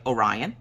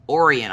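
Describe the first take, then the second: First: "Orion" said oh-RYE-un, lower, rising; "Orion" with a long i, as a question; corrected name. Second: "Orion" said as OR-ee-un; mispronounced name. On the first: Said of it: "I'm like". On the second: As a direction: misread "Orion" with an ee in the middle. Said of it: "And he goes". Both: Retold or imitated.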